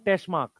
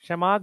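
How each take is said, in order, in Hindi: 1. यह उपनाम उच्चारित 't' से शुरू होता है। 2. यह उपनाम बिना किसी 't' ध्वनि के शुरू होता है।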